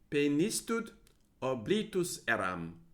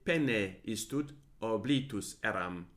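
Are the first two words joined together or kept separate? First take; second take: joined; separate. First: The first two words merge into one word. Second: The first two words are said as separate words. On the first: "one would probably pronounce as penistud" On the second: "Or you could say pene istud oblitus eram"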